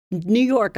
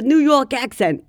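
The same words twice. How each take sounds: First: Said in the usual way. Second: Higher, hammed-up New York accent; thick New York accent. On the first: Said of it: "my cousins who live in England think that I have". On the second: Shown as a demonstration. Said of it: "a thick New".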